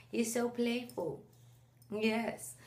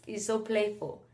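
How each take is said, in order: First: Put-on soft, slow sing-song baby-directed voice; cooing to baby. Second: Said in the usual way. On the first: Mom cooing to her son in her arms, soft and slow. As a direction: coo it to the baby in your arms.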